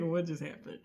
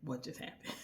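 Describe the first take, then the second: First: Said in the usual way. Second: Soft, breathless, stunned whisper. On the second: Retold or imitated. Noah after the kiss, a dazed whisper.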